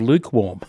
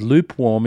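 First: The word is said with a k sound. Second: The word is said with a p sound. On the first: The speaker calls it right. "instead of lukewarm" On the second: The speaker calls it wrong. "my partner says lukewarm ... That's L-U-P-E"

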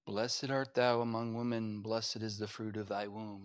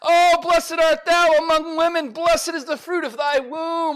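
First: It is said in a meek, quiet way. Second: It is said in an excited, lively way.

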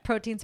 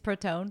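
First: The word ends with an 'een' sound. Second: The word ends with an 'own' sound. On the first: The speaker calls it right. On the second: The speaker calls it wrong.

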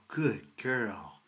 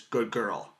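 First: The voice is lively and animated. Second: The voice is flat and low in energy. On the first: The speaker calls it right. "in a nice animated voice" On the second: The speaker calls it wrong. "Not this good girl, which is what he did"

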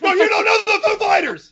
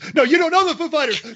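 First: It is said at the loudest volume. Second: It is said at a louder volume.

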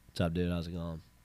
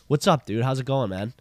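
First: It sounds indifferent and uninterested. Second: It sounds enthusiastic and excited.

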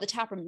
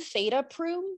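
First: It is split as 'the tap room'. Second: It is split as 'theta proom'. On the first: The speaker calls it right. "nobody could possibly mispronounce that" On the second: The speaker calls it wrong. "is this Kelly from Theta Proom?"

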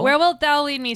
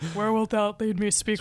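First: The voice is at its normal pitch. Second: The voice is pitched noticeably lower.

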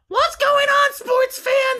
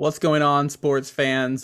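First: It is said in a put-on cartoon character voice. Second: It is said in a natural speaking voice.

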